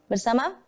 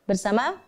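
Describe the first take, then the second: No difference in how they are said.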